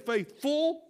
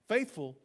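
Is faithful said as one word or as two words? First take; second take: two words; one word. First: It is said as two separate words. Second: It is said as one joined word. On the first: Being full of faith. "like two separate words" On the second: The usual word meaning loyal. "instead of faithful"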